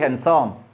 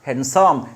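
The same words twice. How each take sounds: First: The d sound is silent in the word. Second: The d sound is pronounced in the word. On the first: The speaker calls it right. "but handsome d is silent" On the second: The speaker calls it wrong.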